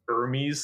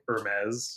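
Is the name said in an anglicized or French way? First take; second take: anglicized; French. First: The name is given an anglicized pronunciation. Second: The name is given a French pronunciation. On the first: The speaker calls it wrong. "high fashion brands being mispronounced" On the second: The speaker calls it right. "the correct pronunciation"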